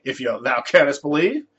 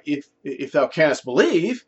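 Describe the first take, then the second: First: "If you, thou canst believe" asked with a rising end on "believe"; as a question. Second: "If, if thou canst believe" read slowly as a statement, falling at the end; flat scripture reading. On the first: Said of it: "It's like a question". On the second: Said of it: "that's how the scripture actually reads". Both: Shown as a demonstration.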